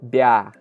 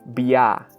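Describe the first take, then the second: First: A soft b merges straight into ah. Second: A plain b is followed by separate ya. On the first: The speaker calls it right. "this syllable is going to sound like this" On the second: The speaker calls it wrong. "very important not to pronounce it as bia"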